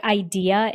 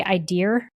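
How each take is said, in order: First: Said in the usual way. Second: IDEA pronounced "eye-DEER"; IDEA with added R. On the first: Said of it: "some people say idea and some people say". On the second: Shown as a demonstration. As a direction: end IDEA on a clear R sound. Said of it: "and some people say idea".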